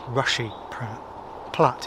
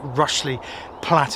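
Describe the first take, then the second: First: The first word has no L sound in it. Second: The first word has an L sound before the end. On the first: The speaker calls it right. "It is definitely Rushy Platt" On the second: The speaker calls it wrong. "I think I pronounced it Rushley Platt"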